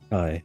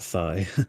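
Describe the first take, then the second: First: The word begins with a plain T sound. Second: The word begins with a TH sound. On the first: The speaker calls it right. "Thai, not thigh. Like Thailand" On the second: The speaker calls it wrong. "not thigh"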